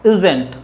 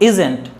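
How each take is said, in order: No difference in how they are said.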